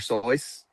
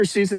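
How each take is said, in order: First: The vowel sounds like the vowel in 'voice'. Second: The vowel sounds like the vowel in 'juice'. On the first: "is actually supposed to be pronounced" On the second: "Did you know that Doctor Seuss"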